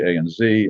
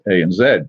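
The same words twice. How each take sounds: First: The letter Z is said the American way. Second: The letter Z is said the Canadian way. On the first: The speaker is American. "the Americans would say" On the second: The speaker is Canadian. "if you were Canadian, it was it's"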